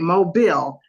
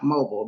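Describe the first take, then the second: First: It uses the pronunciation the locals use. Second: It uses a pronunciation the locals do not use. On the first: The speaker calls it right. "They say Mobile, Alabama" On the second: The speaker calls it wrong. "not Mobile. They don't say that"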